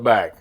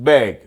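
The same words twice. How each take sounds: First: The vowel sounds like the one in cat. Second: The vowel sounds like the one in bed. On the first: This is how people in the south say it. "B A G. We would call it bag" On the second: This is how people in the north say it. "like B E G, like it's spelled B E G"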